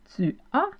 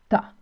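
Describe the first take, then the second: First: The two words are said fully as two syllables. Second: The words are contracted into one syllable. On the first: This is the standard form used across the French-speaking world. "qui est la norme" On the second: This is the form used in Quebec. "au Québec, on utilise ta"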